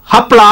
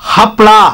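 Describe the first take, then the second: First: The word begins with an h sound. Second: The same.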